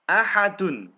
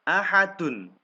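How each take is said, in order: The two takes are said the same way.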